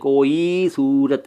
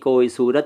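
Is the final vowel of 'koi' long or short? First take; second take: long; short. First: The final vowel of koi is long. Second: The final vowel of koi is short. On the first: The speaker calls it wrong. "ऐसे नहीं बोलते हैं" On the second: The speaker calls it right. "जब आप पढ़ते हैं ना तो कैसे बोलते हैं"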